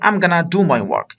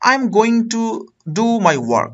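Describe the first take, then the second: First: Going to is reduced to one word, gonna. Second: Going to is said in full, two words.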